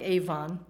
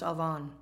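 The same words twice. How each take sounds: First: Avon said as it is spelt, like AY-von; spelling pronunciation of Avon. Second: Avon said as Hebrew ah-VON; Hebrew pronunciation of Avon. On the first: Preacher showing how the Hebrew word looks, Avon read as spelt. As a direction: say Avon the English way, as written. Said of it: "It's spelt like Avon". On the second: Preacher teaching the real Hebrew sound, Avon pronounced ah-VON. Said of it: "it's really pronounced Avon". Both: Shown as a demonstration.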